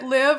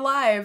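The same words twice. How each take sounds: First: The vowel is short, rhyming with 'give'. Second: The vowel is long, rhyming with 'five'. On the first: It is an order to go and live. "is it a command, an imperative" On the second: It describes something happening in real time. "or or like action?"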